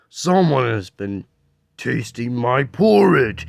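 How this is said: It is said in a deep, gruff voice.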